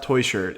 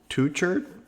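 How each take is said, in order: First: The first syllable sounds like 'toy'. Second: The first syllable sounds like 'two'. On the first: The speaker calls it wrong. "It's it's not Toy Shirt" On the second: The speaker calls it right. "It's like Two Shirt"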